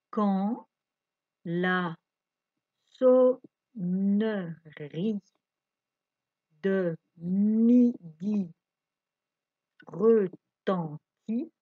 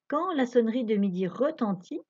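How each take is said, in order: First: It is read at a slower pace. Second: It is read at a faster pace.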